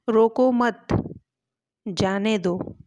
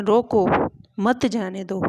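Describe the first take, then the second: First: Loud "रोको मत" as one group, long pause, then "जाने दो"; pause after मत. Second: Loud "रोको" alone, pause, then "मत जाने दो" together; pause after रोको. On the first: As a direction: join "मत" to "रोको", then stop before "जाने दो". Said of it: "जैसे एक बार हम कह सकते हैं". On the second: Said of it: "और दोबारा कह सकते हैं". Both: Shown as a demonstration.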